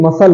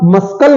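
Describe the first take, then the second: First: No k sound is heard in the middle. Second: A k sound is heard in the middle. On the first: The speaker calls it right. "बल्कि मसल होता है" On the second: The speaker calls it wrong. "मस्कल नहीं होता है"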